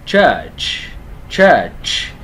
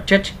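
First: "Church" loud, with a drawn-out falling vowel; kéo dài âm ơ. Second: "church" cut short, with no long vowel; đọc sai, âm ngắn. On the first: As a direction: stretch the vowel of "Church" and release a hissing ch. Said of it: "Âm ơ dài kéo chữ ơ dài". ("Church" kéo dài ơ, bật hơi ch cuối) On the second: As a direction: say "church" as one short Vietnamese-like syllable. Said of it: "chứ không phải đọc là church". ("church" đọc cụt, không kéo dài âm ơ) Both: Shown as a demonstration.

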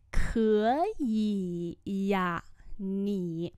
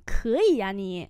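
First: Separated syllables, softening toward the end; slow teacher's repeat; slow model pronunciation. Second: Said in the usual way. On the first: Shown as a demonstration. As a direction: stretch each syllable. Teacher repeats phrase slowly.

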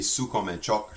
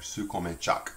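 First: "choc" ending the phrase as chawk; French phrase with a rounded O in "choc"; rounded-vowel variant. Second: "choc" ending the phrase as chahk; French phrase with an AH in "choc"; open-vowel variant. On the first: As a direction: say "choc" as chock after "comme un". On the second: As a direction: say "choc" as chack after "comme un". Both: Shown as a demonstration. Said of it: "sometimes pronounced choc".

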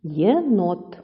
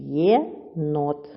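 First: Said in the usual way. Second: "Єнот" in two separate syllables, Є, pause, нот; split into syllables. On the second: Shown as a demonstration. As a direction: break "Єнот" apart: Є... нот. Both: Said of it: "поділ слова".

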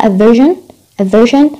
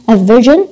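First: "virgin" as version with a voiceless sh; British sh in version. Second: "virgin" as version with a voiced zh; American zh in version. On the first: Teacher quizzing students on British form, sh in "virgin". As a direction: make the middle consonant of "virgin" sh. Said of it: "البريطاني". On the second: Teacher quizzing students on American form, zh in "virgin". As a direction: voice the middle consonant of "virgin" as zh. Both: Shown as a demonstration.

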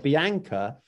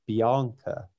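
First: Bianca with a short "a", bee-AN-ka; everyday Bianca. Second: Bianca with a long "ah", bee-AHN-ka; posh Bianca. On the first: Showing the less posh version, Bianca with a short "an". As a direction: say Bianca as "bee-ANK-uh", as in bank. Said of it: "they'd be thinking that's more normal". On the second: Showing a friend the posh version, Bianca with a broad "ahn". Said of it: "if you were to say". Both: Shown as a demonstration.

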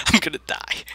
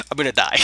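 First: Laughing through the words. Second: Said in the usual way. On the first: Real, not acted. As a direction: giggle it out helplessly. Laughing at own doom.

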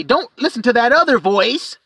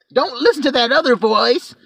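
First: Lying dragon. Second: High, sly "Don't listen to that other voice"; lying dragon. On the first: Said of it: "I'll just lie and say". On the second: Dragon deceiving people, higher sly mock plea. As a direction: wheedle "other" with a rise. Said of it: "I'll just lie and say that". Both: Retold or imitated.

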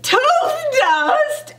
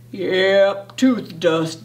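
First: Put-on higher-pitched, incredulous kid's outcry; startled exclamation, pitched up; half-shouted question. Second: Low, slow-talking dad figure; low fatherly pronouncement; dad's voice. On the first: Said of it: "I kinda shouted". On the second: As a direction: say it low, like a matter-of-fact dad. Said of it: "Dad all said". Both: A narrator's reading.

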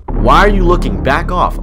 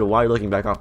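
First: Loud, higher-pitched confrontational read; aggressive quote. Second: Said in the usual way. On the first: Retold or imitated. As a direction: act out someone snapping at an intruder. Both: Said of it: "this guy just said".

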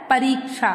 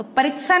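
First: "परीक्षा" with long i, "pa-reek-sha"; correct pronunciation. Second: "परीक्षा" with short i, "pa-rik-sha"; wrong pronunciation. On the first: Teacher answering what it is, correctly pronounced. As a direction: lengthen the ree in "परीक्षा". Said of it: "क्या होता है?". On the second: Teacher telling children what it isn't, mispronounced. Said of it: "नहीं होता". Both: Shown as a demonstration.

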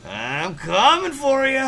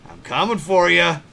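First: Higher, slow teasing threat; drawn-out taunt. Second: Said in the usual way. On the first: Acted. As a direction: stretch it out like a cartoon villain.

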